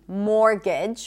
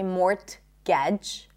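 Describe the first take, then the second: First: The T sound is not pronounced. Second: The T sound is pronounced. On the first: The speaker calls it right. "More words with silent T" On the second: The speaker calls it wrong. "We don't say mortgage"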